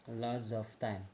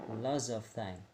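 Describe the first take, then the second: The two takes are said the same way.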